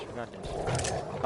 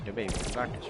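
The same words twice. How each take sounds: First: Slow whisper to myself; whispered pep talk. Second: Said in the usual way. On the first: Real, not acted. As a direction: breathe it out slowly, just for me. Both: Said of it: "So I'm telling myself".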